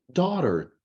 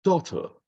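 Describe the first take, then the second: First: Slow American "daughter" with voiced R; American pronunciation. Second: British "Daughter", high falling pitch; British pronunciation. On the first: Teacher contrasts it with British for students, American accent. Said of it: "pronúncia americana". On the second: Teacher demonstrates the British flag's pronunciation, British accent. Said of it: "Bandeira da Grã-Bretanha, pronúncia". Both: Shown as a demonstration.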